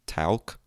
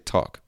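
First: The L is sounded in the word. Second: The L is silent in the word. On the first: The speaker calls it wrong. "that's the way it should be pronounced if you read it ... the way it's written" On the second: The speaker calls it right. "But we say talk"

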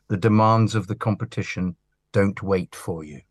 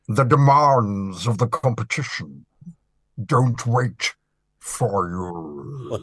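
First: It is said in the speaker's normal voice. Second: It is said in a put-on Master voice.

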